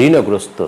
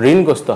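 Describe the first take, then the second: First: ঋণগ্রস্ত said "rino-grosto"; sounded middle vowel in ঋণগ্রস্ত; correct pronunciation. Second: ঋণগ্রস্ত said "rin-grosto"; bare n before g in ঋণগ্রস্ত; wrong pronunciation. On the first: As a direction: add "o" after the n in ঋণগ্রস্ত. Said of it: "হবে". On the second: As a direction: drop the vowel after ঋণ in ঋণগ্রস্ত. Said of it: "ঋণগ্রস্ত হবে না". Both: Shown as a demonstration.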